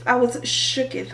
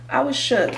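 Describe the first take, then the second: First: "shooketh" said as shook-eth, with a mock old-English ending; playful shooketh. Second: Said in the usual way. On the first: Shown as a demonstration. Teller to viewers, joking about how scared she was, playful archaic shooketh.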